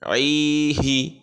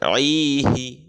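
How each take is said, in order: No difference in how they are said.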